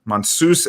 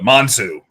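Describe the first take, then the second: First: The name ends with a final s sound. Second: The name ends without a final s sound. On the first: The speaker calls it right. "Mansus is the correct pronunciation" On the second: The speaker calls it wrong. "the whole dilemma with uh"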